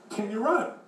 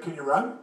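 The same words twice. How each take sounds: First: "run" lifted high as if asked a second time; insistent repeat. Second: Said in the usual way. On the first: Acted. Old man repeats after "What?.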